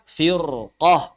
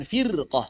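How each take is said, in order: First: FIRQAH with a heavy, dark r; thick r. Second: "firqah" with a light r after a clear "i"; wrongly thin r. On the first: Teacher shows how we read it before isti'la, thick r. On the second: Teacher shows what it is not, thin r. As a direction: keep the r in "firqah" thin, as a mistake. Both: Shown as a demonstration. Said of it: "bukan firqah".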